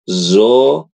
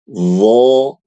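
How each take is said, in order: First: It starts with a plain z sound. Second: It starts with the tongue tip between the teeth. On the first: The speaker calls it wrong. "Jadi jangan dibaca zo" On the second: The speaker calls it right. "ujung lidah kita tuh keluar sedikit"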